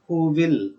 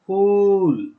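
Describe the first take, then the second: First: Both words are said fully and separately. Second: The words are merged into one short syllable. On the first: "Full form" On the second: "contrasted form, and its pronunciation"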